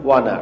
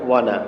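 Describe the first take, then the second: No difference in how they are said.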